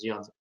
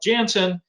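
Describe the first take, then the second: First: The name is said the Belgian way. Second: The name is said the American way. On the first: The name is said as its Belgian founder said it. The speaker calls it right. "the right pronunciation is Janssen" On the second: The speaker is blending in with local listeners. The speaker calls it wrong. "you may need to blend in and just call it Janssen"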